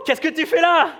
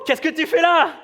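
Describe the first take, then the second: First: It sounds warm and pleasantly surprised. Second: The same.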